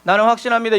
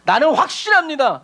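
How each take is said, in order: First: It is read plainly, without feeling. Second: It is proclaimed forcefully, with strong conviction.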